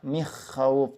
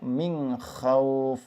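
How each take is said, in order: First: The n sound is dropped before kh entirely. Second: The n sound is blurred into a nasal hum. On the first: "Atau tidak dibaca" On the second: "Tidak dibaca"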